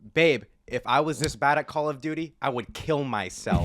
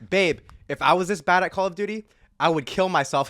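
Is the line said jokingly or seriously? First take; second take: seriously; jokingly. First: It is said in a harsh, serious tone. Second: It is said in a playful, joking tone.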